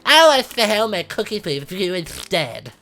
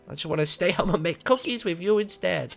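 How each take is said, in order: First: It is said in a dazed, slow character voice. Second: It is said in a plain, normal voice.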